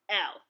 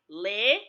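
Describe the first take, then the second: First: It is said like the English letter name 'el'. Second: It is said like 'li' in the word 'lily'. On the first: This is the English way to say it. The speaker calls it wrong. "not pronounced the same way as in the English alphabet" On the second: This is the Igbo way to say it. The speaker calls it right. "It is pronounced as in the letters L I"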